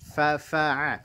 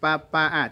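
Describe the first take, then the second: First: The first sound is a breathy, flowing f. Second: The first sound is a stopped p. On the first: The speaker calls it right. "ada napas yang mengalir" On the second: The speaker calls it wrong. "jangan pa pa'a"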